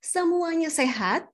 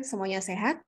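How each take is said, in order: First: "Semuanya sehat" high, stretched and rising; lively intonation. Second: "semuanya sehat" low and soft; flat intonation. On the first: Presenter checking on audience, lively intonation. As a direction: ask "Semuanya sehat" slowly with lifted pitch. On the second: Presenter checking on audience, flat intonation. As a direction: say "semuanya sehat" without energy, kept down. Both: Shown as a demonstration. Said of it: "Beda dengan".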